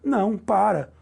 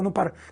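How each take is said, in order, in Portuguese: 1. As palavras são lentas, separadas por uma pausa. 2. As palavras saem rápidas, juntas, sem pausa. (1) "a pombinha fala assim" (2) "é tudo uma questão de velocidade"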